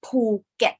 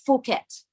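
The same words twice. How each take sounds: First: "Phuket" as slow "Poo... get"; correct pronunciation. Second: "Phuket" with an F, "Foo-ket"; wrong pronunciation. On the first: Teacher correcting learners, "Phuket" said the Thai way as "Poo-get". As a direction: say "Phuket" with an aspirated P and short "get". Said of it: "it's Phuket". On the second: Teacher rejecting the English reading, "Phuket" mispronounced as "Foo-ket". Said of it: "this word is not Phuket". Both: Shown as a demonstration.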